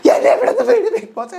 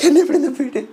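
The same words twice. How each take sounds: First: Much higher wail with a laugh; repeated plea now pitched up to a squeal; hysterical Jasmine. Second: High mock plea; first, milder plea to Bigg Boss; pleading Jasmine. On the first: Acted. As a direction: let the plea crack into a shrieking wail. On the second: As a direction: whine to be let out. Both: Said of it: "അപ്പൊ Jasmine വീണ്ടും".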